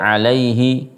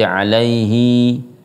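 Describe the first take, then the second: First: The final vowel is short. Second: The final vowel is drawn out long.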